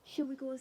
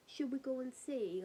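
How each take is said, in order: First: Said in the usual way. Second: Whispered. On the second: Retold or imitated. Asking the family whether to go outside, hushed whisper. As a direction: breathe the question out without voice. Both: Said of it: "we were like".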